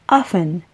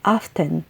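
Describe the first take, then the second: First: The T sound is silent. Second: The T sound is pronounced. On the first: This is the usual North American way. "silent ang letter T kapag pinopronounce ang salitang to, particularly in North American English" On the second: This is common in British English. "acceptable din ang pag-pronounce ng letter T nito as in often, lalo na sa British English"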